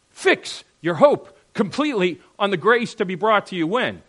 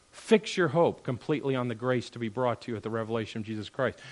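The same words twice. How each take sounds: First: Loud, higher, phrase-by-phrase stress on "Fix your hope completely"; emphatic verse repeat. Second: Said in the usual way. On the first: Real, not acted. Repeats the verse emphatically, asking when.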